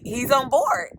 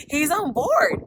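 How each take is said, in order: First: Said in the usual way. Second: Yelling the news to her viewers; overjoyed shout. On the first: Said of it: "my realtor contacted me and was like". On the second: Real, not acted. Repeats the good news, overjoyed.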